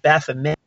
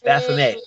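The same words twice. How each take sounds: First: The final T sound is pronounced. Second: The final T sound is silent. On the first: The speaker calls it wrong. "They call it Baphomet" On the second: The speaker calls it right. "more like the French pronunciation with a silent T"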